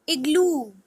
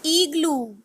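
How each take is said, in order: First: Said in the usual way. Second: Igloo with a long "ee" start, "EE-gloo"; Spanish pronunciation. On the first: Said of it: "I is pronounced as". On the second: Shown as a demonstration. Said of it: "In Spanish".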